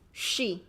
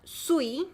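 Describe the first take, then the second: First: It starts with sh, like English she. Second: It starts with s, then a rounded oo. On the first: The speaker calls it right. "it's she. Like she is" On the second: The speaker calls it wrong. "It's not sui"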